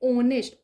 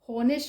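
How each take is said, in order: First: The word begins directly with a vowel. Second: The word begins with an h sound. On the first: The speaker calls it right. "ઓ ઓનેસ્ટ વંચાય" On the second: The speaker calls it wrong. "હોનેસ્ટ નહીં વંચાય"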